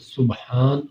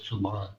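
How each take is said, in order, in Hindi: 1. b और h दो अलग आवाज़ें हैं। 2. b और h एक ही आवाज़ में मिल जाते हैं। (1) "सुब्हान का मतलब है पाक" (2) "ये सुभान नहीं सबान है"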